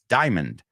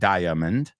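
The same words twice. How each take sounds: First: The word is said with only two syllables. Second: The word is said with three full syllables. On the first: The speaker calls it right. "It's diamond" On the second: The speaker calls it wrong. "It's not diamond"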